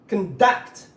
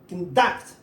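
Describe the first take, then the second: First: The stress is on the second syllable. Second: The stress is on the second syllable.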